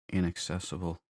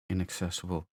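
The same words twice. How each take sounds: The two takes are said the same way.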